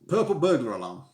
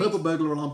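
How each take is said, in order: First: It is said at a normal speed. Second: It is said quickly.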